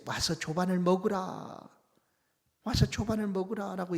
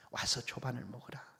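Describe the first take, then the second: First: Jesus calling his disciples from the shore to breakfast; bright invitation. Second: Softer, lower, tender "와서 조반을 먹으라"; Jesus softly calling his tired disciples to eat; gentle invitation. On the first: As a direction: call the disciples in to breakfast, "조반을" lifted. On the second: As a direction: murmur the call to breakfast, "조반을" eased in gently. Jesus quietly calls disciples. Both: Pretend.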